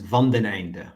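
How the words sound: The name is said with Dutch-style pronunciation.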